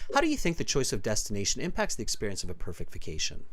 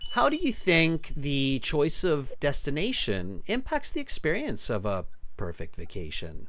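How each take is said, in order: First: It is spoken very fast without pauses. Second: It is spoken slowly with many clear pauses. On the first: "did you really just ask me that that quickly?" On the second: "So they have a lot more pauses, enunciation"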